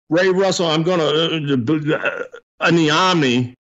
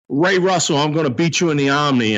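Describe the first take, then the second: First: It is said with stumbling hesitations. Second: It is said smoothly without hesitation.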